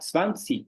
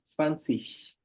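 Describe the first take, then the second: First: The word ends in a hard G sound. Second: The word ends in a soft hissing sound. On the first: This is the most correct standard form. "você vai estar falando o alemão mais correto de todos" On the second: This form is tolerated in educated speech. "eles também toleram o som de X"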